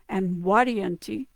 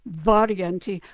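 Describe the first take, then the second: First: The name begins with a W-like sound. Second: The name begins with a clear V sound. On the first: "the W kind of sound" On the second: "modern modern pronunciation"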